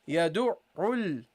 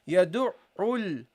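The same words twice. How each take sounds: The two takes are said the same way.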